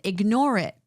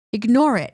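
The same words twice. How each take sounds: First: Said in the usual way. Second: IGNORE IT said louder, mocking the advice; louder, mocking repeat of the advice; mocking emphatic command. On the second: Shown as a demonstration.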